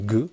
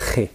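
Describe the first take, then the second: First: It is a hard g sound, as in French. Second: It is a raspy sound from the back of the throat. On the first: "G en français, ça fait le son G" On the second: "c'est un son qui vient d'ici"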